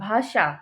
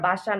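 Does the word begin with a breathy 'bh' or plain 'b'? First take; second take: breathy bh; plain b. First: The word begins with a breathy bh sound. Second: The word begins with a plain b sound. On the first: The speaker calls it right. "বাসা না ভাষা" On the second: The speaker calls it wrong. "বাসা না ভাষা"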